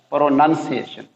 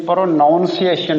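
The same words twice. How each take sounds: First: प्रोनंसिएशन with a short "nun", no "ow"; correct pronunciation. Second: प्रोनाउंसिएशन said with "nown", the common wrong way; wrong pronunciation. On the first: Teacher modelling the right word for students, प्रोनंसिएशन with a short "nun". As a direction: say प्रोनंसिएशन as pro-nun-see-ay-shun. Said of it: "इसको पढ़ना है". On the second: Teacher showing students the common mistake, प्रोनाउंसिएशन with "ow". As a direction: stress प्रोनाउंसिएशन with a full "ow" in the middle. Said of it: "ये प्रोनाउंसिएशन नहीं है". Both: Shown as a demonstration.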